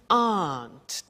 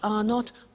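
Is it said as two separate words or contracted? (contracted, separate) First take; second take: contracted; separate. First: It is contracted into one short syllable. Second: It is said as two full separate words. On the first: "the pronunciation of are not, which is aren't" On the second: "to contract those"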